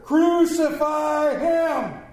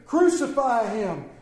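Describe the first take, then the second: First: Loud, slow, drawn-out shout; shouted louder. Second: A firm, raised call; crowd's demand. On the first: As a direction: bellow it like an angry mob. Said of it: "they shouted louder". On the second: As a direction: answer the governor as one crowd. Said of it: "they all answered". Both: Acted.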